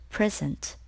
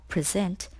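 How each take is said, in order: First: "present" as PREZ-ent, weight on the front; stress on first syllable. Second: "present" as pri-ZENT, weight on the end; stress on second syllable. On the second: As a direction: lean on the last syllable of "present". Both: Shown as a demonstration. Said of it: "can be pronounced in two ways".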